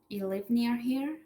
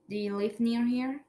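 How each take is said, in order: First: The word 'do' is left out entirely. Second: Every word is said, including 'do'.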